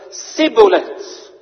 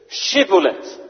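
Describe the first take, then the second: First: The word begins with an 's' sound. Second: The word begins with a 'sh' sound. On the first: The speaker is exposed as an enemy. The speaker calls it wrong. "Met een S" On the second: The speaker is from the group allowed to cross. The speaker calls it right. "Dus je moet het uitspreken als sh"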